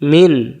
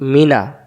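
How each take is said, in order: First: The final vowel is dropped, ending on a consonant. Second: The word ends with an open vowel. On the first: The reader stops on the word. "তাহলে এখানে উচ্চারণ হবে মিন" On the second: The word is read without stopping on it. "এখন মিনা দম ফেলার জায়গাতে নাই এখানে।"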